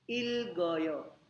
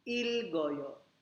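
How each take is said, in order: Both takes have the same delivery.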